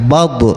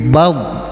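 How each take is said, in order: First: The final b is released with a bounce. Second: The final b is held without release. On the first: The speaker calls it wrong. "enggak bab" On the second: The speaker calls it right. "Tapi bab ditahan"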